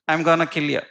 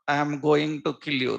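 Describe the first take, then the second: First: The words are contracted into a shortened form. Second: Every word is said fully, without contractions. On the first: "That is his English. ... That is shortcut" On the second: "This is Indian Bollywood actor English dialogue"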